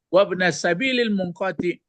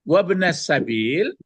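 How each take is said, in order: First: The words run together without a pause. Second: There is a pause before the last word. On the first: The last word is read as part of the phrase. "ke munqati'i perginya" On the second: The last word describes the earlier phrase. "nah berhenti, baru dibaca"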